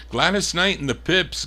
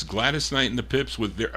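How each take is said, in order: First: Hyped artist call. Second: Said in the usual way. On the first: Real, not acted. DJ hyping the artist to his chat room, excited announcer lift.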